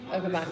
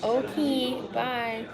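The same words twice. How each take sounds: First: It is said quickly. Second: It is said slowly.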